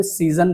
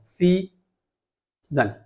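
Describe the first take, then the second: First: Said in the usual way. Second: "सी" and "जन" said apart, long pause between; split into syllables. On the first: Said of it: "जब मैं season बोल रहा हूँ". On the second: Shown as a demonstration. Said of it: "ये syllable बोलते हैं इसको".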